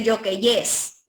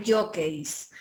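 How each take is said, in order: First: Slow jockeys said yo-KE-yes; wrong plural jockeyes. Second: Slow, soft jockeys, ending in -keis; correct plural jockeys. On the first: Teacher rejects a plural, jockeys stretched to yo-ke-yes. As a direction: add an extra -yes syllable to jockeys. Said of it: "no es jockeys". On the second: Teacher confirms the plural, soft slow jockeys with final -keis. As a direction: say jockeys as YO-keis, no extra syllable. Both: Shown as a demonstration.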